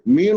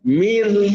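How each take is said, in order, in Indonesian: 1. Suku kata ini terdengar tebal dan berat. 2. Suku kata ini terdengar tipis, dengan bibir melebar. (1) "jangan ditebalkan ... bukan begitu" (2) "senyum sedikit"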